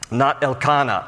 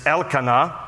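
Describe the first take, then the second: First: Elkanah mis-stressed on the middle KAH; stress on second syllable. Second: Elkanah with the stress on the opening El; stress on first syllable. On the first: Teacher showing the mistake, Elkanah stressed el-KAH-nah. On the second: Teacher giving the father's name correctly, Elkanah stressed on El. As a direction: say Elkanah as EL-ka-nah, El leading. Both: Shown as a demonstration. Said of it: "the emphasis is always on the name of God part".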